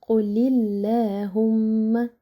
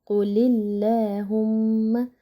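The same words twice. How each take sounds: No difference in how they are said.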